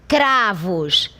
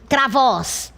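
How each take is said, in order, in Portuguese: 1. A sílaba tônica está na primeira sílaba. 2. A sílaba tônica está na última sílaba. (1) "esta sílaba aqui, cra, é a sílaba tônica" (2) "será que não é a última sílaba? Não"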